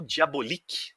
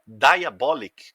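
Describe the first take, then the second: First: Diabolik said the Italian way, slow, dee-ah-BOH-leek; Italian pronunciation. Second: Diabolic said the American way, dye-uh-BOL-ik, slow and loud; American pronunciation. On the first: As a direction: say Diabolik with Italian vowels, stress on BO. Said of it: "Aí depende da sua pronúncia". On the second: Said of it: "caso você seja um americanoide". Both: Shown as a demonstration.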